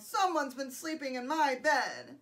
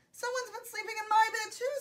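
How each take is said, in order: First: Gruff storybook bear voice; Papa Bear growl. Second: High-pitched mother bear; Mama Bear voice. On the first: Papa Bear finds his bed used, growled. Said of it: "Papa Bear growled". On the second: Mama Bear finds her bed used, high voice. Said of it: "said the Mama Bear". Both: A narrator's reading.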